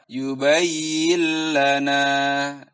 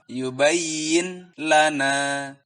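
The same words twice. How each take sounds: First: The n merges into l without nasal hum. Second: The n is pronounced clearly before the l. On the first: The speaker calls it right. "Yang benar adalah" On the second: The speaker calls it wrong. "tidak boleh dibaca izhar"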